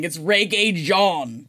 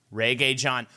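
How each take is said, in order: First: "Reggae Jean" said slowly, ray-gay zhahn; careful pronunciation. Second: "Reggae John" with a plain English John; anglicized name. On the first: Correcting a friend on the actor's name, slow careful pronunciation. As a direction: spell out "Reggae Jean" syllable by syllable. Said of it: "I didn't listen to the whole thing". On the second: Repeating the name back to a friend, anglicized pronunciation. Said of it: "There you go". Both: Shown as a demonstration.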